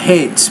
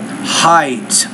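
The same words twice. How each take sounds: First: The vowel is not a clear 'eye' sound. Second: The vowel is a clear 'eye' sound. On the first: The speaker calls it wrong. "not Heights" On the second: The speaker calls it right. "but Heights, I"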